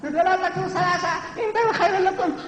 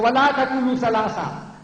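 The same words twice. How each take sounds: First: Very high, squeaky chicken voice; mocking meek recitation. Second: Raised, emphatic declamation; forceful commanding recitation. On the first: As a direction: parody a timid reciter in falsetto. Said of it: "That's not my Allah, that's not my Rasul". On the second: Shown as a demonstration. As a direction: deliver the verse as a stern order. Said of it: "This is how Allah talks".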